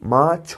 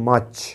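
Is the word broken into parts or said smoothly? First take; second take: broken; smooth. First: The word is split with a break inside. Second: The word is said smoothly in one go. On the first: The speaker calls it wrong. "এইভাবে বলার চেষ্টা করো মা ছ মা ছ তাহলে কিন্তু মাছ হচ্ছে না" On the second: The speaker calls it right. "আমরা বলি মাছ"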